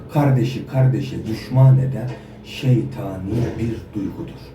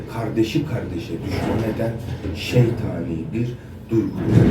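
No difference in how they are said.

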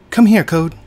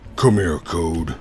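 First: It is said in an ordinary voice. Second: It is said in a deeper, manlier voice.

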